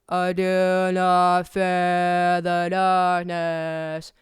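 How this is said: It is spoken with a wide-open scream mouth shape.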